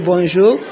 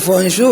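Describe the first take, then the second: First: The word begins with a B sound. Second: The word begins with a V sound. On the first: This is the intended pronunciation. The speaker calls it right. "au lieu de" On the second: This is how the children mistakenly say it. The speaker calls it wrong. "les enfants confondent B et V. Ils disent"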